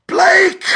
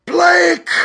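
First: High piercing shriek of a name; a sudden shriek, much higher and louder. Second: High, loud cry in a changed voice; possessed cry of a name; strange possessed cry. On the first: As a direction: scream the name out in terror. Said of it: "she shrieked". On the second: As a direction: call out as if someone else speaks through her. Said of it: "Her voice changed suddenly". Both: A narrator's reading.

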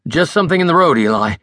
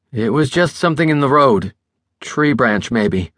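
First: Said in the usual way. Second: Tense, deliberate repeat of "just something in the road"; slow and taut. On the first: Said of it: "the driver repeated". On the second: A narrator's reading. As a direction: hold it tight, say each word carefully. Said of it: "the driver repeated slowly, tautly".

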